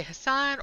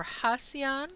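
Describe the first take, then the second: First: Hassan as huh-SAHN, two syllables; two-syllable pronunciation. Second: Hassan as HAH-see-ahn, three syllables; three-syllable pronunciation. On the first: Asking players how they say the name, Hassan as huh-SAHN. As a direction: say Hassan with a long "ahn" on the second syllable. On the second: Offering players the other option, Hassan as HAH-see-ahn. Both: Shown as a demonstration. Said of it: "how do you all say Hassan's name?".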